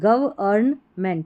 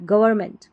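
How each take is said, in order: First: The word is broken into separate syllables. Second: The word is said smoothly as one unit.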